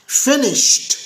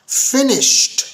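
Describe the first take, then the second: The two takes are said the same way.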